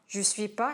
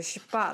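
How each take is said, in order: First: The word je is fully pronounced. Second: The word je is almost dropped.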